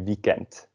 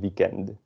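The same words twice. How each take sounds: First: The word ends with a t sound. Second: The word ends with a d sound. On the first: The speaker calls it right. "a D at the end is pronounced as a T. So we say weekend" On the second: The speaker calls it wrong. "not weekend"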